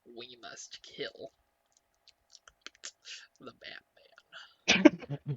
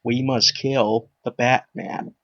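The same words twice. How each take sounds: First: Slow, much softer Joker attempt; half-hearted slow villain line. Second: Put-on slow, lower old Joker voice; Old Man Joker. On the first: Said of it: "that was pretty bad". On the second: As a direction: drag it out like an aged villain. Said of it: "sounds like Old Man Joker".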